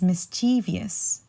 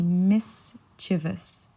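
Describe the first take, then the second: First: Mischievous wrongly as mis-CHEE-vee-us; mispronounced mischievous. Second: Mischievous in three syllables, MIS... chuh-vus; correct mischievous. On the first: Teacher shows what she usually hears, mischievous as mis-CHEE-vee-us. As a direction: stress CHEE in mischievous and add a syllable. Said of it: "pronounced as mischievous". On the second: Teacher corrects the common error, mischievous as MIS-chuh-vus. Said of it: "but it's actually mischievous". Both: Shown as a demonstration.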